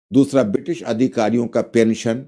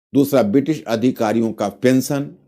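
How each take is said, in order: No difference in how they are said.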